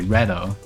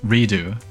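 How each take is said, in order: First: The first syllable sounds like 'red'. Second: The first syllable sounds like 'ree'. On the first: "Redo like red" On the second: "Is it like the word redo?"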